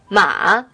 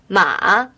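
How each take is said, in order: First: The pitch dips down and then rises. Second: The same.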